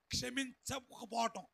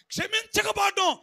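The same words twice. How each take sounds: First: Said in the usual way. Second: Emphatic repeat. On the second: Shown as a demonstration. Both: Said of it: "ఏంటమ్మా".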